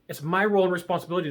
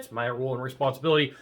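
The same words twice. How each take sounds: First: It is said confidently, with conviction. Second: It is said hesitantly, without conviction. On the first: The speaker believes it. The speaker calls it right. "you have to say it with conviction" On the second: The speaker does not believe it. The speaker calls it wrong. "if you're like, eh, ... no, no, won't work"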